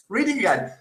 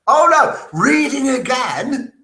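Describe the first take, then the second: First: Said in the usual way. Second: Loud, high, slowed cry at own mistake; self-scolding exclamation. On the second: Real, not acted. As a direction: exclaim it in mock dismay.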